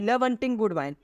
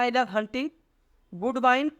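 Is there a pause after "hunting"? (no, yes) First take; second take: no; yes. First: There is no pause after "hunting". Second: There is a pause after "hunting". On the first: The love is for hunting for good wine and food. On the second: Hunting, good wine and good food are three separate loves.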